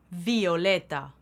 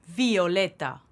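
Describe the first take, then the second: No difference in how they are said.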